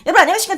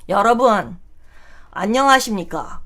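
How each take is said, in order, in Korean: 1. 빠른 속도로 말해요. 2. 느린 속도로 말해요.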